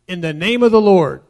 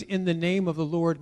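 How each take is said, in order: First: Loud, forceful proclamation; declared formula. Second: Said in the usual way. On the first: Shown as a demonstration. Preacher quoting a misused formula, loud declaration. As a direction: boom it out as a set phrase. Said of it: "if you say". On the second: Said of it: "Hebrew understanding of the phrase".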